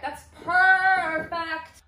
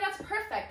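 First: PERFECT stretched very long and louder; drawn-out PERFECT. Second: Said in the usual way. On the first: Real, not acted. Approving her shelf, PERFECT sung out long and slow. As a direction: sing out a long, held "perfect".

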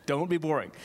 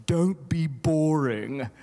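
First: Put-on English accent. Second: Slow, louder mock English accent. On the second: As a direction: drawl it out like a posh English lady. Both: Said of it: "that's my English accent from Linda".

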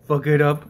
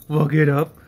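No difference in how they are said.

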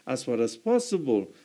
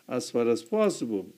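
The two takes are said the same way.

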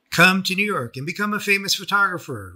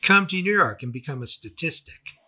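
First: Quoting Rachel. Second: Sarcastic. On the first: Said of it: "Rachel said". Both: Retold or imitated.

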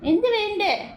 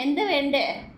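First: 1 higher coaxing question. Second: Said in the usual way. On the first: Real, not acted. Repeats question higher to pet.

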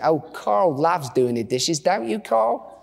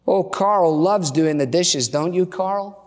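First: Put-on Australian accent. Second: Said in the usual way. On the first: Wife volunteering husband for dishes, Australian accent. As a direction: put on an Aussie wife's accent. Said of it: "say this with an Australian accent". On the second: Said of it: "you have to say this with".

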